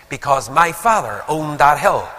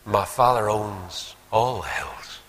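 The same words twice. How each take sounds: First: Firm, slightly louder proud claim; imitated pride, brisker and fuller voiced; touch of pride. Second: Slow, measured correction of oneself; slow right down as the truth dawns; humbled, deliberate retelling, each phrase set apart; sudden realisation. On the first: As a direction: say it with a son's mild boast. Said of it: "a wee touch of noted pride". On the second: Retold or imitated. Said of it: "suddenly he caught himself on".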